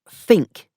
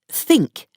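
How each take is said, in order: First: The word begins with an f sound. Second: The word begins with a th sound.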